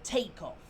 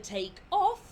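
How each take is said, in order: First: It is pronounced as the noun form. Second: It is pronounced as the verb form. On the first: It names the event of leaving the ground. "the takeoff" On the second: It names the action of leaving the ground. "To take off"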